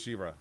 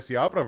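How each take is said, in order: First: The name is said in an Irish-sounding way. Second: The name is said in a Spanish-sounding way. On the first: The speaker calls it right. "I should have been Shivra" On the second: The speaker calls it wrong. "that sounds more Spanish"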